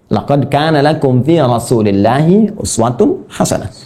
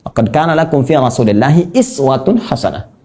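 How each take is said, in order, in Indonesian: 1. Kata uswatun diawali dengan vokal 'u'. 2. Kata iswatun diawali dengan vokal 'i'. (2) "dengan iswah"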